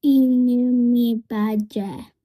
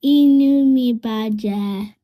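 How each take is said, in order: First: Repeat together. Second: Sad model. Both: Shown as a demonstration. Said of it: "Can you say it with me".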